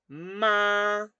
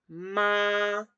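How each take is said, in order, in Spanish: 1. El tono se mantiene alto y plano todo el tiempo. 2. El tono se mantiene alto y plano todo el tiempo.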